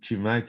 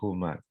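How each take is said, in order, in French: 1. Le nom commence par un k dur. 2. Le nom commence par un son soufflé, proche du h. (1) "si je dis Kumak, ils vont tous partir à rire" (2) "la prononciation exacte, c'est Noah Humak"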